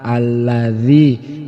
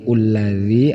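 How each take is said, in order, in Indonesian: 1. Kata ini diawali dengan vokal a. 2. Kata ini diawali dengan vokal u. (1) "kita memulainya dengan menggunakan fathah a" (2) "Jangan sampai keliru ulladzi"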